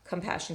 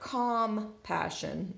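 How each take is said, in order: First: The first vowel is reduced to a schwa. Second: The first vowel is a full, clear vowel. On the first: The speaker calls it right. "but it's flexing to the schwa" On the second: The speaker calls it wrong. "it's not calm passion like we might think"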